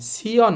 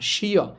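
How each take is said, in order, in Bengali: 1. এটি একটি সাধারণ s ধ্বনি দিয়ে শুরু হয়। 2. এটি একটি sh ধ্বনি দিয়ে শুরু হয়। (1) "আপনি কিন্তু এটাকে সিয়াসু পড়বেন না, সিয় না"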